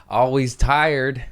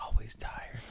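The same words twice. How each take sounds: First: Slow stretched catchphrase. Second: A private murmur of the motto; whispered catchphrase. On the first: Host announcing his tired motto, slow and drawn out. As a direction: stretch Always tired like a weary slogan. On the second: Host whispering his motto to himself. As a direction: breathe Always tired in a whisper, no voice. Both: Acted.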